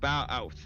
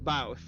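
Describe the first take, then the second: First: Said slowly, the two vowels kept apart. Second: Said quickly, the vowels run together. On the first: "there's still two different like" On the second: "but you say it quick, so it's"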